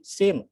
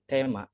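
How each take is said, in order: First: It is pronounced the English way, like theme. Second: It is pronounced the Japanese way, as tema. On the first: A Japanese listener would not understand it. The speaker calls it wrong. "kalau dibaca sesuai dengan pengelafalannya Inggris itu jadi sim" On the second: A Japanese listener understands it. The speaker calls it right. "Jadi tema diubahlah menjadi tema"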